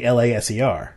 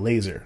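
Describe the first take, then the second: First: It is spelled out letter by letter. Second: It is pronounced as one whole word. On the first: The speaker calls it wrong. "So I'm not saying LASER" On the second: The speaker calls it right. "I'm pronouncing it as a word"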